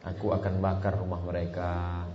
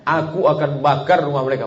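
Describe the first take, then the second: First: Said in the usual way. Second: Louder, higher angry threat. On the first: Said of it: "sambil senyum". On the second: Shown as a demonstration. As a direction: spit out bakar in anger. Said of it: "ini ungkapan marah".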